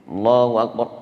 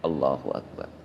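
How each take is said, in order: First: It is said loudly, projected far. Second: It is said quietly, under the breath. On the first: The whole congregation needs to hear it. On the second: Only the one praying needs to hear it.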